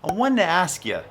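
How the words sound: It is said in a Boston accent.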